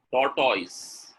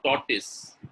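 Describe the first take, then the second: First: TORTOISE ending in "toys"; wrong pronunciation. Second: TORTOISE ending in a short "tis"; correct pronunciation. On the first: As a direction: say TORTOISE as "tor-TOYZ". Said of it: "Tortoise is a wrong pronunciation". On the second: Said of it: "Tortoise is correct". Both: Shown as a demonstration.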